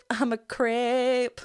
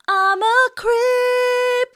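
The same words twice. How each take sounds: First: "creep" drawn out at speaking pitch, vowel leaning to "crep"; slowed vowel demo. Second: Very high, slow, loud sung line; sung, belt "creep" long and high, vowel slightly opened; sung, modified-vowel belt. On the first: Coach slowing the vowel down for viewers, drawn-out "creep" with opened vowel. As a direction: say "creep" slowly with the "ee" opened toward "eh". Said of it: "If we were to slow it down". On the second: Coach demonstrating the modified E vowel, sung belt. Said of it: "just go a little bit to an E vowel". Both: Shown as a demonstration.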